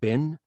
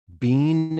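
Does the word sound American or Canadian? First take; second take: American; Canadian. First: It is said with an American vowel. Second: It is said with a Canadian vowel. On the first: The speaker calls it right. "instead of been" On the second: The speaker calls it wrong. "he said been"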